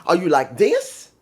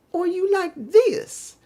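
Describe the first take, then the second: First: Said in the usual way. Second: High, slow and mocking, as if speaking down to him. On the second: Shown as a demonstration. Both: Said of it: "I should reverse that".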